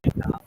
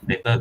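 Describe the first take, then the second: First: It is said in a reluctant, uninterested way. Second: It is said in a normal, neutral way.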